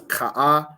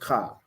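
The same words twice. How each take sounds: First: The vowel is drawn out into two sounds. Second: The vowel is said as one short sound. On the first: The speaker calls it wrong. "you don't pronounce that as ka" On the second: The speaker calls it right. "it's just ka"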